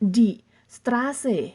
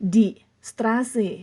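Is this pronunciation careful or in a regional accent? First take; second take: careful; careful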